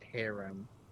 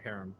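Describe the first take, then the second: First: The word is said as two syllables. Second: The word is said as one syllable. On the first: The speaker calls it wrong. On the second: The speaker calls it right. "It's a one syllable harem"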